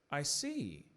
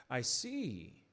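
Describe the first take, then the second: No difference in how they are said.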